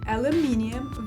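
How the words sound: Four syllables, stress on the third. "British English has four syllables with the emphasis on the third"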